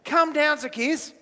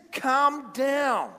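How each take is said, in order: First: Happy invitation. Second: Mock stern order. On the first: Acted. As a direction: call down to a friend with a smile. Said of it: "big happy face". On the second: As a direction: order them down, dragging each word. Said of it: "instead of going like this".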